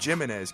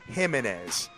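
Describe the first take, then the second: First: The name begins with a J sound. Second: The name begins with an H sound. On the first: The speaker calls it wrong. "before I used to call him Jimenez" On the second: The speaker calls it right. "let me pronounce this right"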